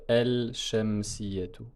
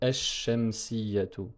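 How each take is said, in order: First: The l is pronounced clearly before the sh. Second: The l is dropped and the sh is doubled. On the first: The speaker calls it wrong. "Je ne peux pas dire el-shamsiyatu" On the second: The speaker calls it right. "on a dédoublé le shin et donc on dit esh-shamsiyatu"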